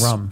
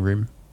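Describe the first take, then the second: First: The vowel is short, like the drink 'rum'. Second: The vowel is long, like 'oo' in 'moon'. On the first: The speaker calls it wrong. "saying rum" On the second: The speaker calls it right. "I'm not saying room"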